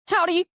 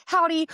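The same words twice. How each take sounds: First: Sudden high, loud howdy; panicked yell. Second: Panicked howdy. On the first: Panicking fan yelling Howdy at a race driver, loud and high. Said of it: "I panic and I just yell". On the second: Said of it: "And I said". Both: Retold or imitated.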